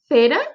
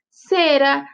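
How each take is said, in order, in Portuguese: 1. O c é pronunciado com som de th. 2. O c é pronunciado com som de s. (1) "Mas na Espanha é cera"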